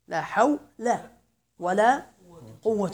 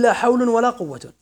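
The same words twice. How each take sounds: First: The first noun ends in -a, the second in -un. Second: Both nouns end in -un. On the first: "الأول مبني على الفتح" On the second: "أي ترفع كليهما"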